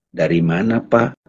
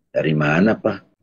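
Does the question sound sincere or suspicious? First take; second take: suspicious; sincere. First: The question sounds suspicious and probing. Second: The question sounds sincere and humble. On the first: The asker is checking up on the listener. "suka kan memata-matain" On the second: The asker simply wants to know. "bertanya untuk tahu itu ada humility, ada ketulusan"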